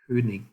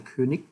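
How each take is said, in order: First: The final consonant is not a hard K. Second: The final consonant is a hard K. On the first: "So it should be pronounced König" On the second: "it's actually more like a K sound"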